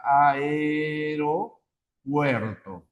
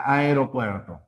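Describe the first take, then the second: First: Aeropuerto drawn out very slowly, syllable by syllable. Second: Said in the usual way. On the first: Shown as a demonstration. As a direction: stretch out Aeropuerto for the class. (pronunciación muy lenta, sílaba por sílaba) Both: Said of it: "a ver, aeropuerto".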